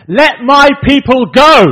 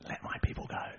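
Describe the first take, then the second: First: Very loud, high, slow proclamation; commanding shout. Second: Hushed, voiceless whisper. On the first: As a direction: bellow the demand at a ruler, word by word. Moses and Aaron confront Pharaoh. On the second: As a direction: whisper it as a solemn echo. God's words repeated, hushed. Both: Retold or imitated.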